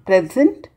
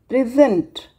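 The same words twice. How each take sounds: First: PREsent, a gift; stress on first syllable. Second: PreSENT, to offer; stress on second syllable. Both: Shown as a demonstration. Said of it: "change in the meaning while stress is being changed".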